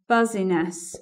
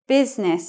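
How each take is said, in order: First: The middle i is pronounced, three syllables. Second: The middle i is silent, two syllables. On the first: The speaker calls it wrong. "it's not buzziness" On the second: The speaker calls it right. "business is that word"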